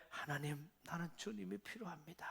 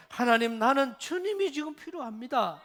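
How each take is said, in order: First: Soft, hushed plea to God; a soft, humble prayer. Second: Louder, urgent cry to God; a loud, earnest prayer; fervent prayer. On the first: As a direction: pray it quietly, humbly. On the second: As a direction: call out to God with fervour. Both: Pretend.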